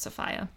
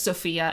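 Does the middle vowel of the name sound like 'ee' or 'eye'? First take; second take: eye; ee. First: The middle vowel sounds like 'eye'. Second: The middle vowel sounds like 'ee'. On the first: This is the old British pronunciation. "it was actually pronounced Sophia" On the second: This is the modern everyday pronunciation. "Instead of Sophia"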